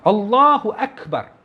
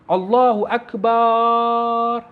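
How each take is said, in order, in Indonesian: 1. Bunyi 'ba' pada Akbar dibaca pendek. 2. Bunyi 'ba' pada Akbar dipanjangkan. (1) "Yang boleh" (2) "tidak boleh memanjangkan huruf ba pada lafaz akbar. Tak boleh"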